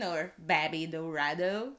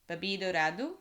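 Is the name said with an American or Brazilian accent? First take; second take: American; Brazilian. First: The name is said with an American accent. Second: The name is said with a Brazilian accent.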